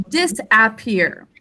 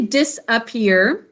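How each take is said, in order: First: "disappear" as dis-AP-peer, short a as in cat; spelling pronunciation. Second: "disappear" as dis-uh-PEER, rising at the end; everyday pronunciation. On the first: Teacher gives think-to-spell word, "disappear" with a clear AP. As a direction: say "disappear" with every vowel full. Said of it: "the whole word we think to spell". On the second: Teacher shows how we say it, "disappear" with unstressed uh. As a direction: say "disappear" with a weak schwa in the middle. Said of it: "So we say". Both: Shown as a demonstration.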